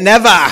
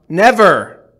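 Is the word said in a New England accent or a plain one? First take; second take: New England; plain. First: It is said in a New England accent. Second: It is said in the speaker's ordinary accent.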